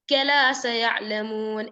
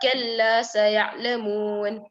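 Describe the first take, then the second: First: The l is short and single. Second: The l is held long with no nasal hum. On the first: The speaker calls it wrong. "you read it without shadda" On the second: The speaker calls it right. "That's the correct one"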